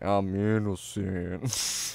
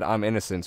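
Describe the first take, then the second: First: It is said in a slow, lazy drawl. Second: It is said plainly, at normal speed.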